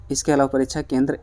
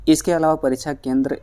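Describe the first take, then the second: No difference in how they are said.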